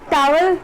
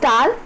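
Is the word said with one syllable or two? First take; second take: two; one. First: It is said with two syllables, with a w. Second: It is said as one syllable, no w. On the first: The speaker calls it wrong. "टावल बोलते हैं" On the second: The speaker calls it right. "It's टाल"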